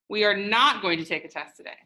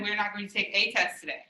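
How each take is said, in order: First: The stress is on the word not. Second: The stress is on the word a.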